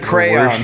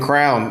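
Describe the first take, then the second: First: The word is said with two syllables. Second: The word is squeezed into one syllable. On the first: The speaker calls it right. "It's a crayon" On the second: The speaker calls it wrong. "instead of a, crayon, it's a fucking crown"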